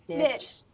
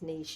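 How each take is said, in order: First: It is said the Southern way. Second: It is said the non-Southern way.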